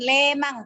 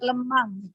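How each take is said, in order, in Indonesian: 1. Vokal pertama itu E yang keras dan jelas. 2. Vokal pertama itu E yang lembut dan lemah. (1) "Kalau orang Batak kan lemang kata dia kan, itu salah" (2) "E-nya itu harus E lembut"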